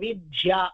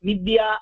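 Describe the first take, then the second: First: The middle consonant is said pressed, with aspiration. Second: The middle consonant is said plain, without aspiration.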